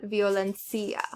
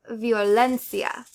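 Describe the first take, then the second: First: Violencia wrongly stressed on CI, violenCIa; misplaced stress. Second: Violencia stressed loudly on LEN, vioLENcia; stress on second-to-last syllable. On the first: Teacher showing learners wrong stress, violenCIa. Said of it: "not violencia". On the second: Teacher showing learners correct stress, vioLENcia. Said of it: "stress the second to last syllable". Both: Shown as a demonstration.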